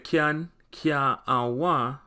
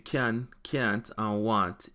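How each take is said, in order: First: It is said with Jamaican Patois pronunciation. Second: It is said with Standard English pronunciation. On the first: "We say" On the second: "in a English"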